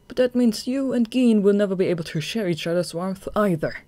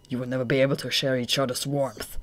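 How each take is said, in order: First: Higher, louder, stress on that; firm retort. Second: Cold villain voice. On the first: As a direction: turn his words back on him. Atsushi throws the words back. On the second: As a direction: deliver it as a cruel verdict. Akutagawa's cold verdict. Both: Acted.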